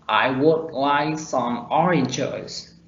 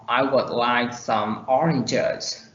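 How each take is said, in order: First: "would" said in full with a clear vowel; strong form. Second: "would" reduced to a short schwa; slow sentence with a weakened, unstressed "would"; weak form. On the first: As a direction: give WOULD its full, unreduced sound. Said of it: "In strong form". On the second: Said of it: "In weak form". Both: Shown as a demonstration.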